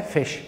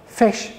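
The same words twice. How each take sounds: First: "fish" said softly, as the punchline. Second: "Fish" said loud and clear on its own; model word fish. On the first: Teacher ending the ghoti joke with "fish". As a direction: drop the punchline "fish" quietly. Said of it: "Put them together". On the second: Teacher giving the model word "Fish". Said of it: "This is fish". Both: Shown as a demonstration.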